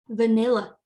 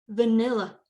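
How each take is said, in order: Both takes have the same delivery.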